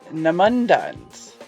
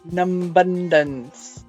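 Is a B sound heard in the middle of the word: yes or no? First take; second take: no; yes. First: No B sound is heard after num. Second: A B sound is heard after num. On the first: The speaker calls it right. "the B in num is silent" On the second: The speaker calls it wrong. "so you wouldn't say numbundance"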